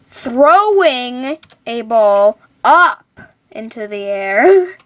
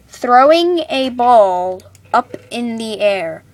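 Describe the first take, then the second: First: The phrase is said with strong, forceful emphasis. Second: The phrase is said plainly, without extra force. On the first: The speaker calls it right. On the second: The speaker calls it wrong.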